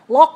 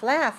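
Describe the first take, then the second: First: The word ends in a k sound. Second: The word ends in an f sound. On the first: The speaker calls it wrong. "you might say something, lock" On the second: The speaker calls it right. "and you mean laugh"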